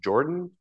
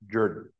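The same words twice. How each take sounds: First: The name is said in the standard way. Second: The name is said with a Georgia pronunciation. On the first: This is how the name looks in print. The speaker calls it wrong. "If you read it in a book, it looks like Jordan" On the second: This is how the name is actually pronounced locally. The speaker calls it right. "but it's pronounced Jordan because this is Georgia"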